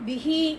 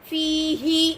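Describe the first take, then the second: First: The first vowel is cut short. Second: The first vowel is drawn out long. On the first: The speaker calls it wrong. "நம்மால் எப்படி ஓதுவோம் தெரியுமா?" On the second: The speaker calls it right. "ஃபீஹி அப்படி இருக்கும்"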